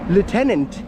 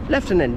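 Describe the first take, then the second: First: It is said with an American pronunciation. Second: It is said with a British pronunciation. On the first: "is an American way of saying it" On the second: "Lieutenant is a British way of saying it"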